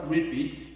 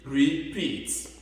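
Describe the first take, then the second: First: The vowel in the second syllable is short. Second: The vowel in the second syllable is long. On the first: The speaker calls it wrong. "je ne dis pas repeat" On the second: The speaker calls it right. "mais je dis repeat"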